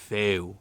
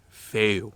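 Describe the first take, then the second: The two takes are said the same way.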